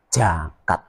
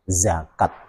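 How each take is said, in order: First: The word begins with a j sound. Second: The word begins with a z sound. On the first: The speaker calls it wrong. "bukan jakat" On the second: The speaker calls it right. "pakai huruf Z"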